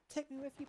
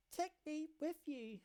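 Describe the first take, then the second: First: Put-on child plea. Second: Slow tearful plea. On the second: Acted. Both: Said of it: "Her cries mingle with tears".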